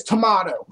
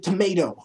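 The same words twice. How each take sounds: First: "tomato" with "ah" in the middle; tomahto pronunciation. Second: "tomato" with "ay" in the middle; tomayto pronunciation. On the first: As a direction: say "tomato" as "tuh-MAH-toh". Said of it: "That's like tomato and tomato". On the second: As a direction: say "tomato" as "tuh-MAY-toh". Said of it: "Everyone says fucking tomato". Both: Shown as a demonstration.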